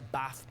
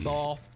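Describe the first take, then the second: First: It is said in a Northern English accent. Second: It is said in a Southern English accent.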